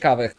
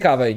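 First: The name ends with a 'kh' sound. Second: The name ends with a 'y' sound. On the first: The speaker calls it wrong. "nie mówi się Kawech" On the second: The speaker calls it right. "tak się mówi Kawej"

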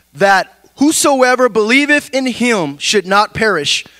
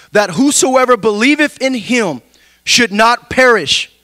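The two takes are said the same way.

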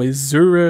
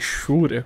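First: The x is pronounced like 'z'. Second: The x is pronounced like 'sh'. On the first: The way it would be said in English. "seria algo como Exura, se for em inglês" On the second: The speaker's habitual Brazilian way of saying it. "falei Shura com X"

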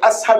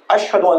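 First: The middle consonant is a plain s sound. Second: The middle consonant is an sh sound. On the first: The speaker calls it wrong. "He was pronouncing" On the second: The speaker calls it right. "instead of"

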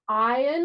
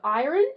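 First: It is said with an Australian accent. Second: It is said with an American accent. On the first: "my Australian accent" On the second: "if I was American, I'd say it like that"

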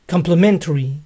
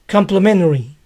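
First: The T sound is clearly pronounced. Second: The T sound is dropped. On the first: "Complementario se pronuncia complementary" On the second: "A menudo se oye sin la T"

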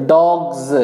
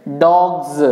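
Both takes have the same delivery.

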